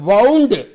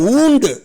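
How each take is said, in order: First: The vowel rhymes with 'cow'. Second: The vowel rhymes with 'moon'. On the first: It is the past form of the action of turning. "அதனுடைய past tense பாருங்க" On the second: It names an injury. "இதே word பெயர் சொல்லா வந்தா உச்சரிப்பு ஊண்டு"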